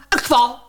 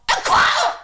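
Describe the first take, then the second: First: Said in the usual way. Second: Much higher cry of alarm at een kwal; sudden high panic, kwal stretched; alarmed shriek. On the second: Acted. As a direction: yelp een kwal! at a jellyfish. Spotting a jellyfish.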